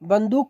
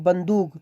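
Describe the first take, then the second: First: The word ends with a k sound. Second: The word ends with a g sound. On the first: This is how Hindi speakers say it. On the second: This is how Arabic speakers say it.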